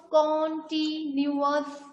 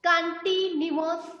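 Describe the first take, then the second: First: continuous slowly, held in separate syllables. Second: Said in the usual way. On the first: Shown as a demonstration. Teacher dividing the word for class, continuous slowly syllable by syllable. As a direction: stretch continuous out part by part. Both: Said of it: "तोड़ तोड़ के different part में divide करके".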